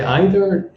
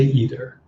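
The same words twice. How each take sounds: First: "either" said as EYE-ther, long i; German either. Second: "either" said as EE-ther, long e; British either. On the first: To the class, showing the German way: "either" as EYE-ther. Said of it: "depends if you're German". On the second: To the class, showing the British way: "either" as EE-ther. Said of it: "In British, they will say either". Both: Shown as a demonstration.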